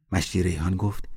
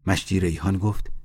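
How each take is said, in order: Both takes have the same delivery.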